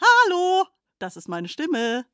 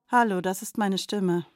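First: The sentence is spoken in a happy tone. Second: The sentence is spoken in a sad tone. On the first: "Bitte sprechen Sie diesen Satz nun fröhlich" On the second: "Bitte sprechen Sie diesen Satz nun traurig"

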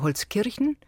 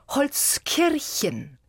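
First: Standard German with a slight regional colouring. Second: Stage German with rolled R and full -en ending. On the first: "schwach dialektal wäre es Holzkirchen" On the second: "auf der Theaterbühne würde es heißen Holzkirchen. Also R gerollt, EN gehört"

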